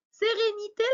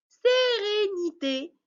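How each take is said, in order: First: Said in the usual way. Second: "Sérénité" slow and high, each syllable stretched. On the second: Shown as a demonstration. Teacher showing where accents go, slow stretched syllables. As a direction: sound out Sé-ré-ni-té slowly, pitched up. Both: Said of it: "il faut couper le mot par syllabe".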